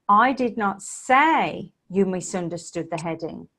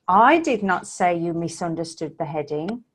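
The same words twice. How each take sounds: First: The stress is on the word say. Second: The stress is on the word you.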